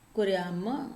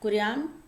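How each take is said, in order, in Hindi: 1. शब्द छोटे a स्वर पर खत्म होता है। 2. शब्द बिना स्वर वाले m ध्वनि पर खत्म होता है। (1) "वयम कुर्याम" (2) "कुर्याम हलंत वाला, अहम कुर्याम"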